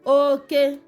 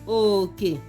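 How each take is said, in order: First: Both syllables are said on a high tone. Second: Both syllables are said on a low tone. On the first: It means male or man. "the tone here is high high tone" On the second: It means share or portion. "It is low low tone"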